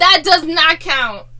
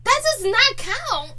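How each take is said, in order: First: Slow, each word weighted; "That does not count" spelled out slowly; slow firm protest. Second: "not" punched, said slowly and higher; stress on NOT. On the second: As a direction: hit "not" hard and slowly. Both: Real, not acted.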